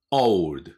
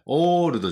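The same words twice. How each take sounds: First: "オールド" as one syllable, "ould", falling; "オールド" loud and English, no vowel after d; model English "old". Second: "オールド" with one long flat "oo" and a full "do"; "オールド" as katakana, no "ou" glide; wrong katakana pronunciation. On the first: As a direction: say "オールド" with an o-u glide for learners to repeat. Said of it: "私の後について発音". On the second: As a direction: say "オールド" Japanese-style, stretching the first vowel. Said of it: "じゃないですよ". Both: Shown as a demonstration.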